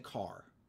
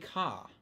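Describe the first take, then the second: First: The final r sound is pronounced. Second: The final r sound is dropped. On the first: "they don't say car. R" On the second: "They say ka"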